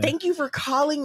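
It is spoken with a Northern Californian accent. "Let's do California, Northern California"

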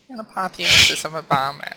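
It is said in a small, mousy voice.

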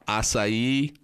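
It is said the way Brazilians say it.

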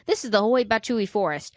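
The name is said boldly, with confidence. The speaker calls it right.

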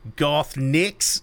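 It is said in an imitated Australian accent. "he's Australian. So it'd be like Garth Nix. No, that was bad"

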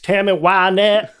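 The name is said with a hillbilly twang. This is how the hosts have always said it. "putting more of a redneck hillbilly twist on it"

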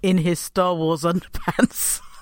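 The line is broken up by laughter. The speaker calls it wrong. "I could not say that without corpsing"

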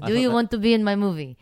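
It is spoken in an accent that sounds Russian. The speaker calls it wrong. "That's an excellent Russian accent"

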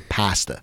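It is said in a Philadelphia accent. This is how the father said it. "my father used to say pasta"

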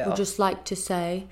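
It is said in a strong Cockney English accent.

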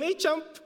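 The vowel sounds like the one in cup. The speaker calls it wrong. "We kind of messed up the pronunciation because of our Filipino accent"

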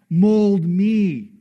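The stress falls on the word me.

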